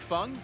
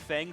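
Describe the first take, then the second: First: It is said the strict original way. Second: It is said the common anglicized way. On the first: This is the technically correct form. "technically would be Feng" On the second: This is what teammates and everyone else use. "everyone calls him Feng"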